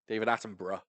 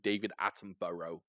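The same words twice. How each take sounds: First: The name is said in a British accent. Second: The name is said in an American accent. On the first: The speaker calls it right. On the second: The speaker calls it wrong.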